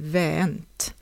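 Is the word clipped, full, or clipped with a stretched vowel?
stretched. The final vowel is dropped and the vowel is stretched. "förlänger den"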